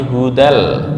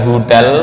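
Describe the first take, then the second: First: The d is a firm, precise Arabic dal. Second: The d is a loose, imprecise sound. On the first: The speaker calls it right. "tapi hudal" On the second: The speaker calls it wrong. "bukan hudal"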